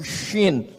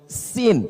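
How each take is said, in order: First: Shin with a clear sh sound; Arabic shin. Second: Sin with a sharp plain s; Arabic sin. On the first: Preacher teaching Arabic letters, sounding shin clearly. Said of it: "ada huruf shin". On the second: Preacher teaching Arabic letters, sounding sin crisply. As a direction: hiss the s of sin. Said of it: "ada huruf sin". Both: Shown as a demonstration.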